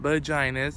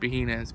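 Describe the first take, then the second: First: The middle consonant is an English J sound. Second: The middle consonant is a soft H sound. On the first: This is how English speakers say the name. The speaker calls it wrong. "Vaginas is the English pronunciation" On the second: This is the original Spanish way of saying the name. The speaker calls it right. "J's in Spanish is an H"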